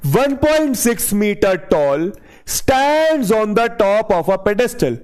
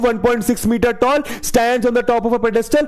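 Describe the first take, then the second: First: It is read slowly and calmly. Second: It is read quickly and hurriedly. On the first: The speaker calls it right. "एकदम आराम से।" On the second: The speaker calls it wrong. "तुम कैसे करते हो?"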